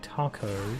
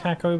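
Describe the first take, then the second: First: Taco is said with a non-British pronunciation. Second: Taco is said with the British pronunciation. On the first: It is the form the speaker prefers. The speaker calls it wrong. "I'd rather say taco. But I don't think that's correct" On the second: It is the form considered correct in the UK. The speaker calls it right. "that's the correct pronunciation in the U K"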